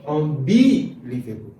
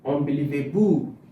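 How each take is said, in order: First: The stress is on the second syllable. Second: The stress is on the fifth syllable. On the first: "If I put it on the second one" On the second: "If I put it on the fifth one"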